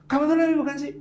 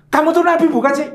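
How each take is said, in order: First: High, clipped exasperated jab; angry jealous retort. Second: High, loud exasperated jab; mock angry jealous wife, much higher and louder; angry jealous retort. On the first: Retold or imitated. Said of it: "untuk marah kepanjangan". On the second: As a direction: snap at him like a jealous wife. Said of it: "wanita yang sangat marah dan cemburu".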